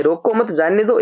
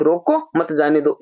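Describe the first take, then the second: First: "रोको मत" grouped, then "जाने दो"; pause after मत. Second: "रोको", a break, then "मत जाने दो"; pause after रोको. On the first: Teacher gives students the first reading, pause after मत. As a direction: attach मत to रोको, slight break before जाने. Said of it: "एक ये हो गया". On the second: Teacher gives students the second reading, pause after रोको. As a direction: split off रोको and join मत to जाने दो. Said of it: "उस कॉमा के हिसाब से". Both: Shown as a demonstration.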